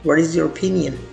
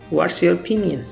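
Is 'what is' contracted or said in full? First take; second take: full; contracted. First: What and is are said as two words. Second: What and is merge into one word, what's.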